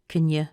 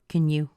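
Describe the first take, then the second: First: You ends in a reduced schwa sound. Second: You ends in a full oo sound. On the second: "Even if I say you with an oo sound"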